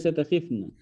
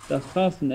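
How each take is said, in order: First: تخفن said as ta-KHIF-na; short i after the kh in تخفن; takhifna, wrong vowel. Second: تخفن said as ta-KHAF-na; short a after the kh in تخفن; takhafna with a. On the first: Teacher cites the form to avoid, تخفن as takhifna. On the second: Teacher models the present form, تخفن as takhafna. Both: Shown as a demonstration. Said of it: "ليس تخفن".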